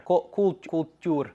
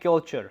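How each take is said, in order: First: Culture said as "kool-toor"; halting stabs at culture, landing on "kool-toor"; retried pronunciation. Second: Said in the usual way. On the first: Real, not acted. Retries the word more foreign.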